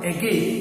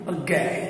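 First: The first vowel is full and clear. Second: The first vowel is short and unclear. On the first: The speaker calls it wrong. "It's not again" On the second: The speaker calls it right. "This is the sound we have to give"

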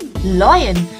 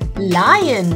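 First: The first vowel sounds like 'loy'. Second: The first vowel sounds like 'lie'. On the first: The speaker calls it wrong. "Sometimes you might say loyan, but no, it's not loyan" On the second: The speaker calls it right. "it's lion"

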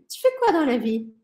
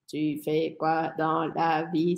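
First: It is said with a smooth, lively natural rhythm. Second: It is said flat and robotic, word by word. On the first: The speaker calls it right. "a gente precisa encontrar essa cadência" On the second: The speaker calls it wrong. "a gente não vai falar desse jeito... Senão a gente vai parecer máquinas"

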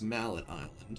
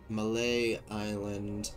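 First: The first word ends with a final t sound. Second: The first word ends without a final t sound. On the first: The speaker calls it right. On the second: The speaker calls it wrong.

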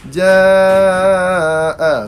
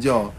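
First: The vowel is said long. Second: The vowel is said short. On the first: The speaker calls it right. "huruf mad ada misai bertemu dengan hamzah ... dinamakan mad jaiz mad wajib muttasil" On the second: The speaker calls it wrong. "bukan ja"

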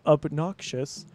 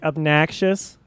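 First: It is said with a standard accent. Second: It is said with a Chicago accent. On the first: "instead of obnoxious" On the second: "I'll say like obnoxious"

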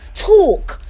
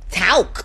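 First: It is said in a British accent. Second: It is said in a Southern American accent. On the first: "y'all British don't say talk" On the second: "y'all Southerners don't say talk"

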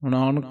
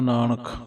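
First: The n sounds are weakened. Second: Both n sounds are fully pronounced. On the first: The speaker calls it wrong. "ਨਾਨਕ ਨਹੀਂ ਕਹਿਣਾ" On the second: The speaker calls it right. "ਦੋਏ ਨੰਨੇ ਵੀ ਪੂਰੇ ਪੜ੍ਹਨੇ ਹੈ"

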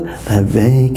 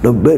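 First: The word is said quietly with a low voice. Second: The word is said loudly with a raised voice. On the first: The speaker calls it wrong. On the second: The speaker calls it right. "to raise their voice"

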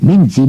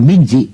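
The two takes are said the same way.

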